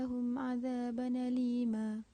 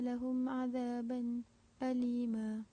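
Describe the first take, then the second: First: The glottal stop drops; n runs into alima. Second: A brief silent break comes before alima. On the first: "naqal pada azaban alima" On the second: "khalaf saktah pada azaban alima"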